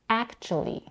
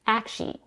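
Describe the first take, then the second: First: The word is said with three syllables. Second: The word is said with two syllables. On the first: "or as a three-syllable word" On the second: "reduces this word to two syllables"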